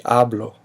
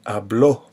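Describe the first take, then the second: First: Hablo, with the weight on "ha"; stress on first syllable. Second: Habló, with the weight on the final "bló"; habló modeled with a stressed final o; stress on last syllable. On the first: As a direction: hit the start of hablo, relax the ending. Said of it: "yo present tense of that verb". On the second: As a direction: hit the ending of habló. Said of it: "notice how I said that". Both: Shown as a demonstration.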